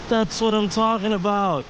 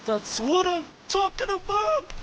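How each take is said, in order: First: Said in the usual way. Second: High, elated cheer; excited. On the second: Real, not acted. Fish caught, celebrating.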